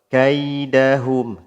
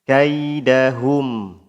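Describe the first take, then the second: Both takes have the same delivery.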